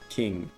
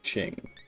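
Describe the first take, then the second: First: The word begins with a k sound. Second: The word begins with a ch sound. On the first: The speaker calls it wrong. "instead of King" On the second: The speaker calls it right. "I think it is Qing"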